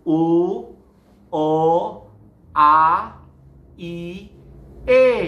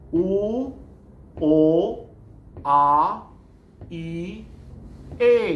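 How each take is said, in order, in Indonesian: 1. Vokalnya terdengar datar, tidak penuh dan bulat. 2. Vokalnya terdengar penuh dan bulat dari belakang. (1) "Kalau mulut belakang kita nggak pakai, bunyi jadi begini... Jadi kurang bulat ya" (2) "mulut belakang harus dipakai selalu ya. Coba"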